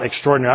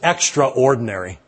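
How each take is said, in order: First: The word is said in the usual contracted way. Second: The word is said as extra plus ordinary. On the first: "the acceptable pronunciation of that word" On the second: "when I pronounce it that way to myself, it helps me to understand exactly what that word means"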